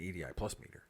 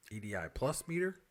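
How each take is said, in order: First: "plus" stressed, the rest quick and softer; quick question with the weight on "plus". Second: "meter?" lifted into a questioning rise; rising uptalk at the end on "meter"; upspeak. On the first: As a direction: lean on "plus", then tuck "meter" in. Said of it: "Emphasis on the wrong syllable". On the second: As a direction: say it as a question, pitch climbing on "meter". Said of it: "Up speak". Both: Shown as a demonstration.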